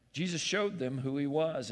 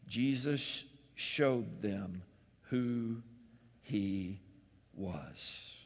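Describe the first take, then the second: First: Said in the usual way. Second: Slow, softer, word by word with pauses; slow emphatic. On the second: Shown as a demonstration. Preacher revealing who Jesus is, slow and soft with pauses. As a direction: let each word land.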